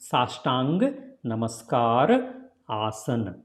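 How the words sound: The words are said separately with breaks. "If you say separately"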